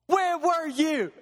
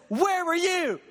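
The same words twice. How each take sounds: First: Drawn-out, heavy repeat; slow, weighty God. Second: Booming shout, higher; God thundering. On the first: God pressing the question again, slow and heavy. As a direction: let each word land slowly. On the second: God demanding an answer from man, shouted. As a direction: roar the question at the listener. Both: Acted. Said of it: "And God says".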